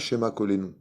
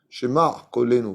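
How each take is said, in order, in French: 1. Le premier mot finit sans son guttural. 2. Le premier mot finit par un son guttural ayin. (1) "pas Shema kolenu" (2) "Shema, Aïn"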